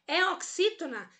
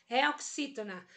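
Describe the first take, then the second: First: "É oxítona?" pitched high as a quiz question; question tune. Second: "É oxítona." settled, falling as an answer; statement tune. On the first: Teacher checking the word herói with students, "É oxítona?" in high questioning tune. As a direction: ask "É oxítona?" with lifted pitch. Teacher asks, then answers herself. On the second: Teacher answering own check on herói, "É oxítona." in falling statement tune. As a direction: confirm "É oxítona." with pitch coming down. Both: Shown as a demonstration.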